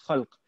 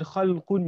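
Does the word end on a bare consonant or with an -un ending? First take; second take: bare consonant; -un ending. First: The word ends on a bare final consonant. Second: The word ends with a final -un ending. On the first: This is the dictionary form without the case ending. "you'll just find it as khalq" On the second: This is the full form with the case ending. "The word khalqun"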